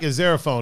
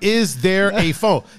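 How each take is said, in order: First: It is said smoothly without pauses. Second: It is said with pauses between the words.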